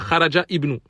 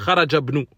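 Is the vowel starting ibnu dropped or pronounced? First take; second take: pronounced; dropped. First: The i of ibnu is pronounced separately. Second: The i of ibnu is dropped and linked. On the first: The speaker calls it wrong. "On ne dit pas Kharaja ibnu. Ça, c'est une erreur" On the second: The speaker calls it right. "On doit dire Kharajabnu"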